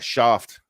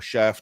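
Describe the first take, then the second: First: It is said in a non-American accent. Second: It is said in an American accent. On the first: The speaker calls it wrong. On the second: The speaker calls it right.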